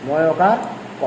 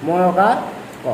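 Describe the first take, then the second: No difference in how they are said.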